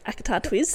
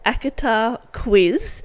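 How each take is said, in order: First: The last word starts with a tw sound. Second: The last word starts with a kw sound. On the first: The speaker calls it wrong. "usually I can't get it and I say" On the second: The speaker calls it right. "I'm glad I said that correctly"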